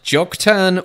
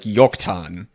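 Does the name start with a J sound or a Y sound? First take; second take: J sound; Y sound. First: The name begins with a J sound. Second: The name begins with a Y sound. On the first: "we might read a J" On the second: "more like a Y"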